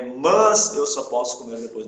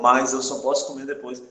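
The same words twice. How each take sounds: First: The word 'mas' is said with a plain vowel. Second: The word 'mas' is said with a diphthong. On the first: The speaker calls it right. "no sentido de, porém, todavia" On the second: The speaker calls it wrong. "a gente tem uma tendência a falar essa frase bem assim ... E tá errado"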